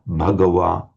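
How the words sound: It starts with a voiced, breathy B sound. "you'd have a distinct voiced b, but aspirated"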